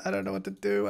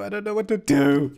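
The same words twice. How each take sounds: First: High, soft, helpless worry; quietly panicked, pitched up. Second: High, full-voiced helpless wail; panicked, high-pitched outburst; rising panic. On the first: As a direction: fret in a small high voice. Panicking at the game, first take. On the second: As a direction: let the panic burst out. Panicking louder, second take. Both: Real, not acted.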